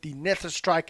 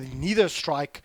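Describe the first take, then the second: First: The first word sounds like 'nether'. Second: The first word sounds like 'neither'. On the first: "I pronounce it Nether" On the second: "however you want to pronounce it"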